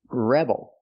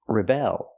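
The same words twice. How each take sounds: First: The stress is on the first syllable. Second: The stress is on the second syllable. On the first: It names a person. "You put the stress on the first syllable" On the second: It names an action. "You put the stress on the second syllable"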